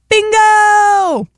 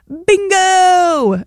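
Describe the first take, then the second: First: It is exclaimed with loud, lively energy. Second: It is said in a flat, plain voice.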